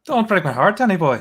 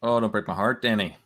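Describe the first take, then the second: First: Higher and louder mock Irish plea, Danny boy; hammed-up Irish accent. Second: A faint hint of an Irish lilt on the plea; lightly voiced Irish, mostly own voice; light Irish accent. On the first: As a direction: belt it like a stage Irishman begging. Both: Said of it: "That's a little Irish accent".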